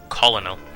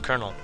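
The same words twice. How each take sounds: First: The word is sounded out letter by letter. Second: The word sounds like 'kernel'. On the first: The speaker calls it wrong. "I actually mispronounced his name when I was younger" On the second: The speaker calls it right. "it's pronounced Colonel"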